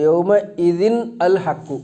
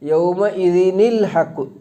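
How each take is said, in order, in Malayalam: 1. ഓരോ വാക്കും വെവ്വേറെയാണ് പറയുന്നത്, കൂട്ടിച്ചേർക്കാതെ. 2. അവസാനത്തെ n അടുത്ത വാക്കിലേക്ക് ചേരുന്നു.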